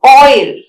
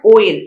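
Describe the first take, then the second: First: "Oil" said loudly with a full oi glide; correct oil. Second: "oil" as the rejected version; wrong oil. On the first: Teacher giving students the correct word. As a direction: stress the right "Oil" clearly. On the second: Teacher showing students the wrong form. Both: Shown as a demonstration. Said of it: "not oil".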